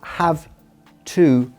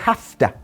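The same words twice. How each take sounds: First: It is said with a clear 'v' sound. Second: It is said with an 'f' sound, like 'hafta'. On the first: The speaker calls it wrong. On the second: The speaker calls it right. "how I'm saying"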